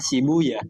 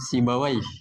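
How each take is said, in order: First: The name ends with an 'uya' sound. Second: The name ends with an 'ai' sound. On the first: This is how hadith scholars read the name. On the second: This is the common reading of the name.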